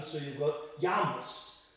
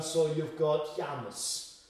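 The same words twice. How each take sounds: First: Jamus said slowly as Ya-mus, m for b. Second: Jamus said slowly as Ya-mus, ending weakened; softened U in Jamus. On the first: Showing b turned to m, Jamus slowly as Ya-mus. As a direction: say Jamus with a y start and u ending. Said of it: "can very easily become softened". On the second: Showing the U softened, Jamus slowly with a weak last vowel. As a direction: let the u in Jamus relax toward eh or ah. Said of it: "softened perhaps into more of an eh". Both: Shown as a demonstration.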